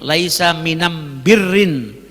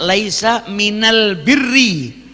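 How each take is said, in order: First: The article sounds like Yemeni 'am', with m. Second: The article sounds like standard Arabic 'al'.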